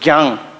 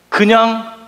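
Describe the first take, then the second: First: The word is clipped to one short syllable. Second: The word is said in full, two syllables.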